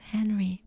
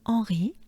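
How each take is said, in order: First: The name is said with an English pronunciation. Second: The name is said with a French pronunciation. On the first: "which is Henry" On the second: "but the French version, so it's Henri"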